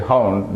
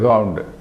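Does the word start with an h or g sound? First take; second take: h; g. First: The word begins with an h sound. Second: The word begins with a g sound. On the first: The speaker calls it right. "They don't say hound" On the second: The speaker calls it wrong. "they pronounce H as, they don't say ha, they say ga"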